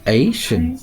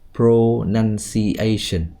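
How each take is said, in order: First: The stressed syllable is high, the others low. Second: The pitch stays fairly even across syllables. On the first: The speaker calls it right. "stress là mình biết là ở A ... cho dấu sắc ... add dấu huyền" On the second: The speaker calls it wrong. "thay vì nói là pronunciation"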